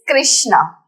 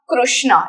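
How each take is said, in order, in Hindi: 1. 'K' के बाद का स्वर 'ri' जैसा लगता है। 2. 'K' के बाद का स्वर 'ru' जैसा लगता है। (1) "It is Krishna" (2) "It's not Krishna"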